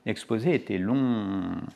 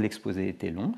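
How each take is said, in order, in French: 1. La voyelle du dernier mot est étirée et longue. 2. La voyelle du dernier mot est brève et simple.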